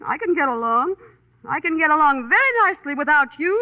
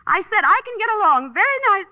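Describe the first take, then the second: First: Huffy, at an ordinary pitch and volume; huffy independence. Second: Higher, huffy insistence; insistent repeat. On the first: Woman telling her companion she can manage alone, mildly huffy. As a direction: declare you need nobody, mildly huffy. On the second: Woman repeating herself to a silent companion, insistent and raised. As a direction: repeat it pointedly to someone not listening. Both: Acted.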